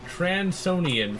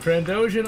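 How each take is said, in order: First: The word is said as Tran-so-nian. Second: The word is said as Tran-do-shan. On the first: The speaker calls it wrong. "I pronounced it Transonian for some reason" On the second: The speaker calls it right. "Instead of Trandoshan"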